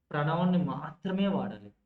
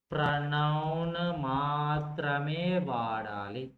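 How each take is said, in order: First: Said in the usual way. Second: Slow, stretched vowels on every word; long, level, almost chanted syllables; drawn-out dictation. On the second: Shown as a demonstration. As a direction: dictate the rule as if others are writing it down.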